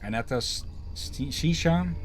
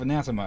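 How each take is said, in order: First: The name sounds unlike the English word anathema. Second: The name sounds like the English word anathema. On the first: The speaker calls it right. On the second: The speaker calls it wrong.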